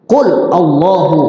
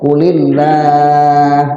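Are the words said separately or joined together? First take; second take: separately; joined. First: The two words are said separately. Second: The words are joined with an i sound. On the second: "karena bersambung dengan huruf Allah, Allah dikasih kasroh"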